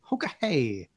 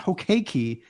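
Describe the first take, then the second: First: The word is said as 'ho-ka-hey'. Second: The word is said as 'ho-kee-kee'. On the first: The speaker calls it right. "It's Hokahei" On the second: The speaker calls it wrong. "It's not Hokeki"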